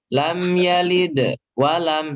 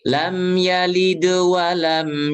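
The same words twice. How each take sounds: First: A long pause breaks the phrase apart. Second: The phrase flows smoothly without a long pause. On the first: The speaker calls it wrong. "jangan jedanya jangan kelamaan, jangan" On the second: The speaker calls it right.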